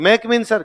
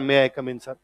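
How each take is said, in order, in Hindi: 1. शब्द आपस में जुड़कर कम अक्षरों में बोले जाते हैं। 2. हर शब्द साफ़ और अलग-अलग बोला जाता है। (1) "ऐसे नहीं बोला" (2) "ये तीन अलग अलग है"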